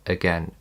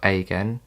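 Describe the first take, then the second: First: The first vowel is a weak schwa. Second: The first vowel is a full vowel. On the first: The speaker calls it right. "let's see where it appears in A" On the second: The speaker calls it wrong. "It's not"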